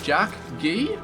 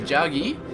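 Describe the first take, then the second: First: The name is said as two separate words. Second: The name is said as one joined word. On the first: The speaker calls it wrong. "It's like two words" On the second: The speaker calls it right. "I'm just gonna say Jaggy"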